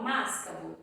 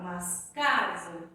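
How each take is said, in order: First: "mascavo" stressed on the first syllable MAS; wrong stress on MAS. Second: "mascavo" slow, leaning hard on the middle syllable CA; stress on CA. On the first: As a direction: punch MAS, let "cavo" drop away. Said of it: "É o mas". ("mascavo" com acento errado no "MAS") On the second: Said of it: "Pode ser que seja o K". ("mascavo" com a sílaba "CA" forte e alongada) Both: Shown as a demonstration.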